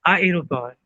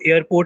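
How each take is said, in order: First: It begins with separate 'ah' and 'eh' vowels. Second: It begins with a single 'air' sound. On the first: The speaker calls it right. "आ ए एक साथ हमें रखना है" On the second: The speaker calls it wrong. "आप इसको एयरपोर्ट नहीं पढ़ोगे"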